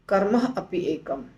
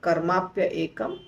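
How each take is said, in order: First: The words are said separately without merging. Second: Karma and api merge into one word.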